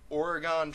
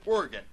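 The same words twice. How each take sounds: First: Oregon as OR-uh-gahn; three syllables in Oregon, ending "gone"; Oregon ending in an open "gahn"; Oregon with full last vowel. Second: Oregon as OR-gun; Oregon with a reduced last vowel; two-syllable Oregon. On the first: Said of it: "I pronounce it that way". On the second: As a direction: squeeze Oregon down to "organ". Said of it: "in other contexts, I pronounce it". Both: Shown as a demonstration.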